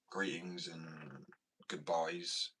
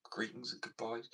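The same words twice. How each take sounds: First: Greetings and goodbyes stretched very slowly, each word drawn long; slow drawn-out phrase. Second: Said in the usual way. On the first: Shown as a demonstration. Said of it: "trying out the phrase". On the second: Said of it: "second take of phrase".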